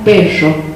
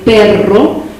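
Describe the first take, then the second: First: The r is a hissing, fricative sound. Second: The r is a rolled trill. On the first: "nosotros la pronunciamos perro, rápido. Es un fonema asibilado" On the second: "En vez de sonar vibrante"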